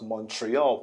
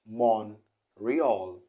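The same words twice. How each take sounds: First: A T sound is heard in the word. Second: No T sound is heard in the word. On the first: The speaker calls it wrong. "So not" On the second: The speaker calls it right. "The T isn't pronounced"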